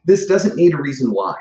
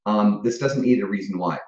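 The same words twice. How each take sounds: First: High, loud and laughing. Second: Said in the usual way. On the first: Real, not acted. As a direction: blurt it out mid-laugh. Laughing through the joke.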